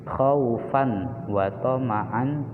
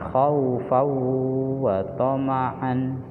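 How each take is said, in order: First: The n sound is pronounced clearly before w. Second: The n sound merges into the following w. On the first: The speaker calls it wrong. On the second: The speaker calls it right. "Dibaca masuk ke lebur seperti fawwa"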